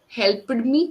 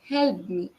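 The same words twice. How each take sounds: First: The -ed ending is pronounced heavily. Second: The -ed ending is pronounced softly. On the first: The speaker calls it wrong. "That help ed sound is focused a lot" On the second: The speaker calls it right.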